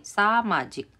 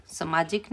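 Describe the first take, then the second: First: सामाजिक with a long aa first, saa-maa-jik; सही उच्चारण सामाजिक; correct form, long aa. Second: सामाजिक said with a short first a, sa-maa-jik; गलत उच्चारण सामाजिक; wrong form, short a. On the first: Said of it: "आ की मात्रा सबके साथ लग गई है". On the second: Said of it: "सामाजिक नहीं". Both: Shown as a demonstration.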